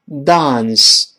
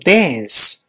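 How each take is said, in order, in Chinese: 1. 它是用英式口音说的。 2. 它是用美式口音说的。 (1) "跳舞英国人读成dance" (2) "美国人读成dance"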